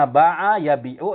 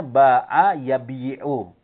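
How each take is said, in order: First: Yabi'u with a long bii; contracted verb form. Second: Yabi'u with an added yi before 'u; underlying verb form. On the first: Teacher citing the spoken verb, yabi'u without separate y. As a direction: run bii straight into 'u in yabi'u. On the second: Teacher showing the original verb, yabi'u with yi sounded. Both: Shown as a demonstration. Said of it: "itu aslinya".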